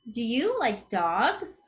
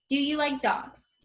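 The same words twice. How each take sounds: First: It ends with a rising question tune. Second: It ends with a falling, statement-like tune.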